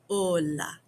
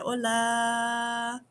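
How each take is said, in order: First: The final a vowel is short. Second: The final a vowel is drawn out long.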